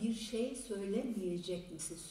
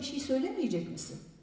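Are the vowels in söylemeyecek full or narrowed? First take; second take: full; narrowed. First: The vowels are said fully, as written. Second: Some vowels are narrowed, as in casual speech. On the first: This is the written form. "Yazarken bir şey söylemeyecek misin" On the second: This is the everyday spoken form. "Konuşurken bir şey söylemeyecek misin diyoruz. Yani bazı ünlüler daralıyor"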